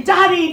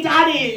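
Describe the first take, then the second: First: High, loud call of Daddy across a room; mock scream. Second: Second "daddy" still loud and high but a little less; repeated mock scream. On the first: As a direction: shout "Daddy" higher and louder to get noticed. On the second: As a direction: call "daddy" again, slightly less raised. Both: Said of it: "I have to scream".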